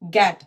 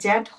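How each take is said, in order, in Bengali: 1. শব্দটি শক্ত g উচ্চারণ দিয়ে শুরু হয়। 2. শব্দটি j উচ্চারণ দিয়ে শুরু হয়। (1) "গ অ্যাট" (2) "এটি জ জ্যাট হবে না"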